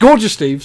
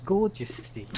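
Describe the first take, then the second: First: Gorgeous repeated loud and high; stress on Gorgeous. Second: Gorgeous said firmly, correcting the name; stress on Gorgeous. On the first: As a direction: hit Gorgeous as you fix the name. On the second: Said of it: "Get it right". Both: Shown as a demonstration.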